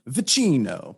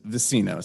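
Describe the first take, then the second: First: The name is said with Italian pronunciation. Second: The name is said with American pronunciation. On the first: "the Italian way to say it is" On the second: "the American way is"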